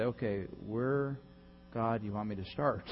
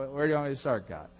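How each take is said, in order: First: Humble prayer. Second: Said in the usual way. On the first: Acted.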